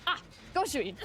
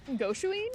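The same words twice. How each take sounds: First: "Goshuin" said as a falling statement; understanding reply. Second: "Goshuin" pitched high, rising at the end; questioning. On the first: Woman recognising the tourist's request, understanding. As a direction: let "Ah, Goshuin" fall in recognition. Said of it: "And she goes". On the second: Translating the tourist's request, questioning. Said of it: "Question mark?". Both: Retold or imitated.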